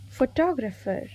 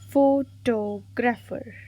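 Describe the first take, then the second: First: Said in the usual way. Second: "Photographer" slowly, syllable by syllable; stressed-word demo. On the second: Shown as a demonstration. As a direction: draw out each syllable of "Photographer". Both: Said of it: "Select the correctly spelled stressed".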